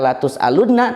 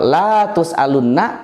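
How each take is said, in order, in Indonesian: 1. Vokal pertama pendek. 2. Vokal pertama dipanjangkan. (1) "taukid, sungguh akan ditanya" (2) "malah tidak akan ditanya"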